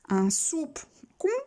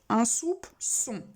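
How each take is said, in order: First: The c is sounded like a k. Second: The c is sounded like an s. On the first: The speaker calls it wrong. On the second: The speaker calls it right.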